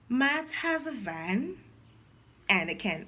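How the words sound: It is read in short phrases with breaks. The speaker calls it right. "But when phrasing, you become"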